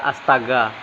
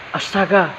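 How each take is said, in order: First: Said in the usual way. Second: ASTAGA exclaimed on a high pitch; higher-pitched, stylised ASTAGA with a falling end; individual intonation. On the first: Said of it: "punya gaya tersendiri ketika mengucapkannya". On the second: Shown as a demonstration. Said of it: "perbedaan intonasi dan gaya bahasa tersendiri".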